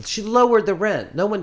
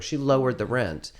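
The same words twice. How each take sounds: First: High, loud disbelief; amazed. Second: Said in the usual way. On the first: Real, not acted. Telling a friend about the landlady, amazed and loud. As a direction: she lowered the rent, can you believe it.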